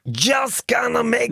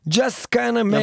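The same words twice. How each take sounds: First: It is said in a put-on imitation voice. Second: It is read in the speaker's own natural voice.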